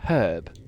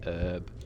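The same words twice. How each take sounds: First: The word starts with an h sound. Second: The word starts without an h sound. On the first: This is how the speaker says it. "instead of herb" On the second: This is how Americans say it. "I love how Americans say herb"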